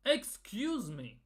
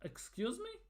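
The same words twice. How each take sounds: First: Slow, drawn-out, falling exclamation; indignant disbelief. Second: High, soft, rising disbelief; incredulous question. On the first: Fan answering the Norway boss's joke, indignant and deliberate. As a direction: stretch it out as an affronted rebuke. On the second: Fan reacting to the Norway boss's quote, incredulous. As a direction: ask it as if you can't believe your ears. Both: Real, not acted.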